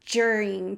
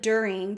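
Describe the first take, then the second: First: The word starts with a j sound. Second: The word starts with a plain d sound. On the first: "they'll say" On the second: "instead of"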